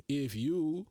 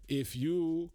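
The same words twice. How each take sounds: The two takes are said the same way.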